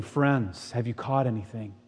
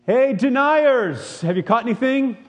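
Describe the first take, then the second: First: Put-on soft, kind greeting to old friends; Jesus calling tenderly from the shore; gentle call. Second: Much higher, slow sneering call; mock accusing shout from the shore; mocking jeer. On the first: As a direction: welcome them back softly. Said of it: "here's Jesus on the shore saying". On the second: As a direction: drag out the taunt like calling out a traitor. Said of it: "something else that we would like to call them".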